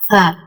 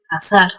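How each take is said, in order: First: It is said in a Spain Spanish accent. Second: It is said in a Latin American Spanish accent. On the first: "los españoles no dicen cazar, ellos dicen cazar" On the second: "nosotros simplemente decimos cazar"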